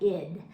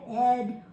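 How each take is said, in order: First: The ending has a quick, reduced 'ih' vowel. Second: The ending has a clear 'eh' vowel. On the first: "if people slur it, say it really quickly, it might sound more like id" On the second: "you're going to hear that ed"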